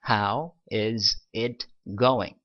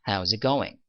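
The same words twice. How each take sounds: First: Every word is pronounced fully and separately. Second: The words are shortened and run together.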